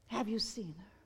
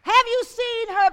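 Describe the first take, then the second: First: Hushed question. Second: Higher and louder, falling at the end; preaching challenge. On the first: Preacher quietly asking the congregation, hushed. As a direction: lower and softer, drawn in close. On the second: Preacher challenging the church to see her, loud. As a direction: hit Have hard and call it out. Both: Real, not acted.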